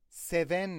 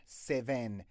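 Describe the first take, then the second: First: Seven said with a Persian-accented short e and clipped n; mock the Persian-accented Seven. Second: Said in the usual way. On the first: Shown as a demonstration. Teacher mocking a Persian-accented Seven for students. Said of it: "این همون فارسی صحبت کردن است". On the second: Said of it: "Seven نه".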